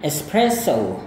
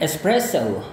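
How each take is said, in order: First: Espresso ending in a plain o, American English. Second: Espresso ending in an ou glide, British English. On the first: Teacher demonstrates American espresso for comparison. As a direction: model American espresso with a pure o. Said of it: "untuk Amerika". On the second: Teacher demonstrates British espresso for comparison. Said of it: "gaya orang Inggris". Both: Shown as a demonstration.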